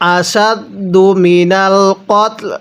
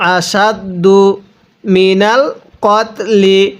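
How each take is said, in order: First: The phrase ends on a bare consonant. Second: The phrase ends on a final vowel. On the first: The reading stops at this word. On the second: The reading continues without stopping.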